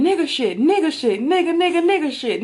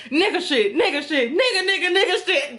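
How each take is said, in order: First: Louder mock crowd chant, higher in the middle. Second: Chanted through laughter, climbing higher; laughing chant. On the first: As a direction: chant it like a whole excited crowd. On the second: Retold or imitated. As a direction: repeat the chant while cracking up. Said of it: "he just started saying".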